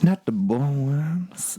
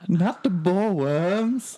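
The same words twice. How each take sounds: First: It is said in a sexy, kinky way. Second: It is said in a plain, ordinary way.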